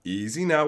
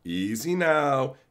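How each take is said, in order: First: Said in the usual way. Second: Calming. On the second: Retold or imitated. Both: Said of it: "Be chill".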